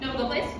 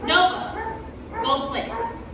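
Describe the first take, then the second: First: It is said quickly without clear pauses. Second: It is said slowly with pauses, clearly enunciated. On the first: The speaker calls it wrong. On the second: The speaker calls it right.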